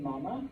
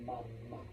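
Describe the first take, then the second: First: "mama" as MA-ma, English way; "mama" with a weak, unstressed ending; stress on first syllable. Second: Soft, low "mama" as ma-MA; Spanish "mama", second syllable stressed; stress on last syllable. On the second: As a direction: quietly lean on the final A of "mama". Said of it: "Pronounce that last A". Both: Shown as a demonstration.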